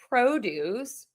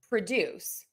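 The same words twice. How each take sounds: First: The stress is on the first syllable. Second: The stress is on the second syllable. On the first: It is a noun meaning fruit and vegetables. "if it's a noun, ... syllable number one for the nouns" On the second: It is a verb meaning to make something. "if it's a verb, ... syllable number two for the verbs"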